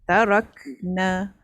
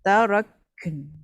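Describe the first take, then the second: First: The word ends with a full final vowel. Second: The word ends in a brief nasal hum. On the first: The reading continues into the next word. "sama seperti kita mewasalkan tarakna" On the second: The reading stops on this word. "dia macam en tu. Dia tak lama pun, sekejap je"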